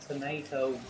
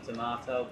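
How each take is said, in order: First: Tomato is said with an American pronunciation. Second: Tomato is said with a British pronunciation. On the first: "I just think the pronunciation tomato works" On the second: "seeing as I'm British, I should call it a Maxim Tomato"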